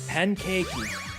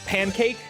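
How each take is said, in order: First: It is said with Japanese-style vowel endings. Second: It is said with plain English pronunciation.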